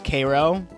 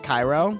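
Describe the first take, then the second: First: Cairo is said in the local town's way. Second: Cairo is said in the usual, familiar way. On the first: This is how the town's own name is said. "there's Cairo instead of" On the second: This is how the name is usually said elsewhere. "instead of Cairo"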